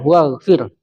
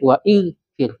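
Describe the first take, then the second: First: The vowel is dropped and the words join. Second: The vowel after 'wa' is kept separately. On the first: The speaker calls it right. "Dan ampunilah. Nah, waghfir" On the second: The speaker calls it wrong. "Tidak lagi menjadi wa ighfir"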